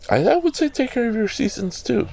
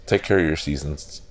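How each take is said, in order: First: Playful high pun. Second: Said in the usual way. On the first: Pretend. Punning on seasons to viewers, silly high voice. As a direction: jump way up into a squeaky high voice for the joke.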